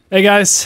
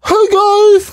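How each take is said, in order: First: It is said flatly, with low energy. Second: It is said with hyped, high energy.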